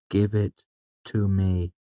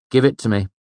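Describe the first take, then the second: First: Slow, level, emotionless demand; cold flat command. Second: Raised, firm demand; insistent, pitched-up order. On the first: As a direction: drain all feeling out, word by word. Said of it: "emotionless and flat". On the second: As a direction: demand it back up front. Demanding back his lute. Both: A narrator's reading.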